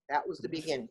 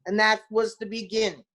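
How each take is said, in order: First: Softer, lower repeat; quiet echo. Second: Said in the usual way. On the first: Real, not acted. Telling Chris how her career started, soft and reflective. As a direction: let it fall away softly.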